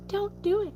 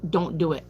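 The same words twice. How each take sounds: First: High, thin, soft squeak; tiny squeaky voice. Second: Said in the usual way. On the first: Shown as a demonstration.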